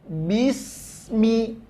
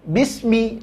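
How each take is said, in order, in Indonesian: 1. Bunyi s mengalir dengan napas yang terdengar. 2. Bunyi s terpotong singkat. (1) "ngalirkan dulu" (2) "jangan bismi, enggak boleh ya, ngalir dulu sinnya"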